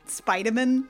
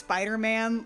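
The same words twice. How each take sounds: First: It is said the way a surname sounds. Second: It is said the usual way for the hero.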